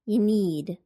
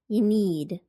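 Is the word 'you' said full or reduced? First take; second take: reduced; reduced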